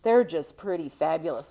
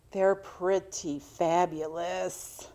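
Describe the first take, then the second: First: Said in the usual way. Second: "they're pretty fabulous" slowed way down, each word stretched; drawn out. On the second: Real, not acted. To her viewers, about tiny cat-eye glasses, slowly drawn out.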